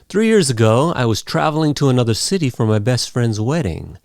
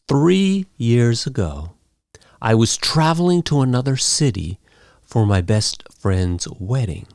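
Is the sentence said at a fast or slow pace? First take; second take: fast; slow. First: It is said quickly and naturally. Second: It is said slowly and carefully.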